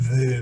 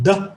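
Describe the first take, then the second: First: The consonant is a soft th sound. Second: The consonant is a hard d sound. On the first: The letter has no dot. "점이 없으면 the 발음이 나고" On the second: The letter has a dot. "점이 있으면 더"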